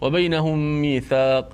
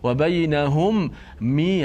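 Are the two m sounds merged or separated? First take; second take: merged; separated. First: The two m sounds merge into one nasal. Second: The two m sounds are separated by a break. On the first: The speaker calls it right. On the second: The speaker calls it wrong. "dia tak akan baca ... nak tarik nafas balik tak perlu"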